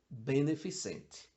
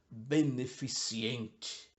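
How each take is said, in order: First: No extra ee sound follows the C. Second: An extra ee sound follows the C. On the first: The speaker calls it right. "Não existe o I depois do C" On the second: The speaker calls it wrong. "se dita beneficiente"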